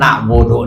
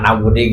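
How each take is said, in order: First: The word ends in an u vowel. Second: The word ends in an i vowel. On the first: The speaker calls it right. "bacaan teh iyyaka na'budu" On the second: The speaker calls it wrong. "salah maca"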